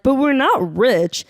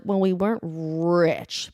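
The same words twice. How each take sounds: First: Slow, higher-pitched whiny denial; imitated younger self insisting; mock naive protest. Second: Slow, hedging "weren't RICH"; stress on RICH. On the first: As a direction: protest "not rich" high and drawn out. Mimicking own younger naive protest. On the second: Retold or imitated. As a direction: concede it slowly, stretching RICH. Corrected, measured later view.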